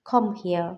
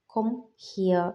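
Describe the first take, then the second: First: Said in the usual way. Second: ഹിയർ drawn out slowly as hier, not her; slow careful pronunciation. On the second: Shown as a demonstration. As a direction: stretch ഹിയർ so it is clearly hier. (ഹിയർ പതുക്കെ, her അല്ല hier ആയി) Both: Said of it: "ഹെർ അല്ല ഹിയർ".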